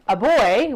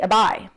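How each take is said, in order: First: The vowel sounds like the oy in toy. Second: The vowel sounds like the i in buy. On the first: "instead of um, a boy" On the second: "we say a bye"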